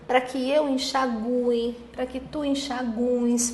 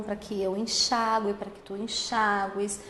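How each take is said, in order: First: Enxague and enxagues with drawn-out GU, slowly; stressed U. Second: Enxague and enxagues stressed on XA, U as a glide. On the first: Teacher showing second variant, slow stress on U in enxague. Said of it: "com a sílaba tônica recaindo no U". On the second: Teacher conjugating first variant, stress on XA in enxague. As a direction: say en-XÁ-gue, stress on the A. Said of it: "se forem pronunciadas com A e o I tônico". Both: Shown as a demonstration.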